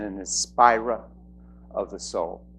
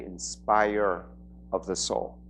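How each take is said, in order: First: Inspirer with a New England dropped r; New England accent. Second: Said in the usual way. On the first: Real, not acted. Host introducing a speaker, slipping into a New England accent. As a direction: end "inspirer" on an open New England vowel. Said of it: "That's my New England accent". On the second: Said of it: "I should say".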